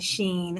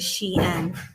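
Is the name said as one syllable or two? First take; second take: one; two. First: The name is said as one syllable, sheen. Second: The name is said as two syllables, she-in. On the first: The speaker calls it wrong. "I shop at Sheen" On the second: The speaker calls it right. "I did not know it was Shein"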